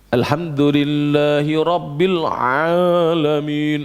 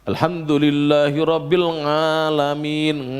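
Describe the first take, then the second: First: The throat sound in 'alamin' is heavily exaggerated. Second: The 'alamin' begins with a nasal 'ng' sound. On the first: The reciter is overdoing the pronunciation. "Ada yang ainnya ah gitu" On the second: It reflects a regional local habit. "Kalau orang Jawa di tempat saya di Kediri malah"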